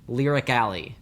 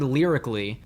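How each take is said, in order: First: The word ends with a full 'alley' sound. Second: The word ends with a short 'lee' sound. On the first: The speaker calls it wrong. "She pronounces it Lyric Alley" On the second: The speaker calls it right. "say lyrically instead of Lyric Alley"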